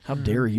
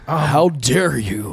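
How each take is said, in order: First: It is said in an ordinary speaking voice. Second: It is said in a put-on preacher voice.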